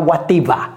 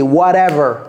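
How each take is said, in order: First: The 'ever' vowel sounds closed, like French 'Eva'. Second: The 'ever' vowel sounds open, like French 'ê'. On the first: The speaker calls it wrong. "c'est pas whatever" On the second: The speaker calls it right. "C'est whatever ... comme si c'était E accent circonflexe"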